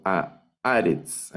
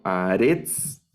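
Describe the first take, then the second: First: A Aretz slow, stressed on A of Aretz; acento en la primera A. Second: A Aretz slow, wrongly stressed on final -retz; acento mal colocado. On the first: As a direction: correct a Aretz, falling away after the stressed A. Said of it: "sino a Aretz". (a Aretz lento, con acento en la A de Aretz) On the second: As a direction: rise onto the last syllable of a Aretz. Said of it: "No leo a Aretz". (a Aretz con el acento en la última sílaba) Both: Shown as a demonstration.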